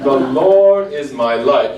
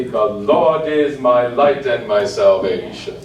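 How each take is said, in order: First: Slow, laughing, wrong-rhythm reading; mock wrong rhythm. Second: Slow, even reading in the right groupings; correct rhythm. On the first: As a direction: show the forbidden triplet rhythm with a laugh. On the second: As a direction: show how the phrase should bounce. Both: Shown as a demonstration. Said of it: "the ixnay would be".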